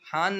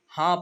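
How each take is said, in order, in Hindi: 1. इस शब्द का अंत पूरे न की आवाज़ से होता है। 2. स्वर नासिक्य है, उसमें पूरा न नहीं है। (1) "हान नहीं पढ़ना है" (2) "हाँ पढ़ना है"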